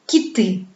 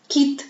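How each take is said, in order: First: "quitter" with a light first syllable and stressed ending; accent moved to the end of "quitter"; stress on second syllable. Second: "quitte" as one stressed syllable on I; clearly stressed I in "quitte". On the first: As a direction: lean on the last vowel of "quitter". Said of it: "il se déplace sur la deuxième syllabe". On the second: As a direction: put the accent on the I of "quitte". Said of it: "l'accent tombe sur le son I". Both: Shown as a demonstration.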